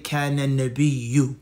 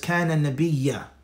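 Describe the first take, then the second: First: The last word ends with a 'u' vowel. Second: The last word ends with an 'a' vowel. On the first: The speaker calls it right. "should be with a dhamma" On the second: The speaker calls it wrong. "So this is a mistake here"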